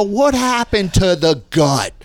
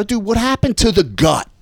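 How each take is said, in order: First: Slow, higher-pitched mock demand; drawn-out taunt. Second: Higher-pitched buddy ribbing; retold teasing. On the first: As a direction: stretch each word of the taunt. Retold belly-slapping taunt, repeated. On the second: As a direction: rib him at a brisk, raised pitch.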